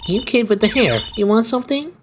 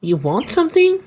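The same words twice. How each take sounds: First: Put-on much higher old lady voice, lifting "want"; an old gangster lady eyeing the kid. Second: Much higher, put-on old lady asking "something" with a rising end; an old gangster lady sizing someone up. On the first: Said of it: "some kinda old lady voice". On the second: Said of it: "I don't know what to give this lady voice".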